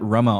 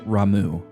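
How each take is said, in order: First: The name ends with an 'ah' vowel. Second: The name ends with an 'oo' vowel. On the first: This is the familiar way it was always said. The speaker calls it wrong. "I pronounced it Rama all my life" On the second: This matches the original Japanese reading. The speaker calls it right. "it should be pronounced Ramu"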